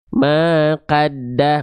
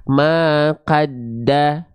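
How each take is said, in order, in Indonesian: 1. Vokal setelah q terdengar seperti 'a' yang jelas. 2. Vokal setelah q terdengar seperti 'a' yang jelas.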